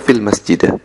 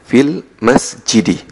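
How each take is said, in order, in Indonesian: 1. Kata terakhir diakhiri dengan vokal a. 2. Kata terakhir diakhiri dengan vokal i. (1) "tidak boleh dibaca" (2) "Jadi fil masjidi"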